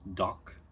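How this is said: The word ends in a voiceless consonant.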